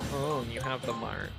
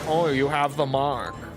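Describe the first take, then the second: First: It is said in a moody, emo-style voice. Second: It is said in a put-on British voice. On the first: The speaker calls it right. "I should have gone more emo" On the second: The speaker calls it wrong. "I don't know why I did a British voice"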